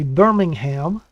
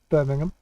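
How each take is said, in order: First: An American pronunciation with a full 'ham' ending. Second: A British pronunciation with a reduced 'ham' ending. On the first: "people from the U S A would say Birmingham" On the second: "we'd say Birmingham"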